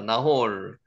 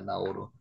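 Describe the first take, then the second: First: The name ends on a consonant, two syllables. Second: The name ends on an added vowel, three syllables.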